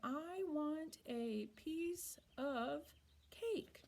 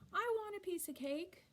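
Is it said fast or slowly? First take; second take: slowly; fast. First: It is said slowly and carefully. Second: It is said fast and run together.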